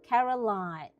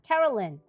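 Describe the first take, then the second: First: The last syllable sounds like 'line'. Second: The last syllable sounds like 'lin'. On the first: The speaker calls it wrong. "not Line" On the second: The speaker calls it right. "because the Y N"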